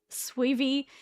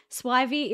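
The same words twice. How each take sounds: First: "swivy" with first vowel as in "see"; swivy as "SWEE-vee". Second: "Swivy" with first vowel as in "eye"; Swivy as "SWY-vee". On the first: Streamer reading out a viewer's name, "swivy" pronounced "SWEE-vee". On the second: Streamer reading out a viewer's name, "Swivy" pronounced "SWY-vee". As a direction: say "Swivy" to rhyme with "ivy". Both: Shown as a demonstration. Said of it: "everyone says a different".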